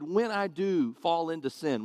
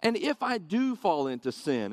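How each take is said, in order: First: When pressed as the correction; stress on when. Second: Said in the usual way. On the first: Shown as a demonstration. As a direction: hit when, not if. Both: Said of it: "maybe more correctly stated".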